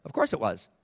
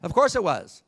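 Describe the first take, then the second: First: Said in the usual way. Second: Louder and higher, hammering the point; a much louder, higher repeat; emphatic. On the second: Real, not acted. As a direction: say it again with force.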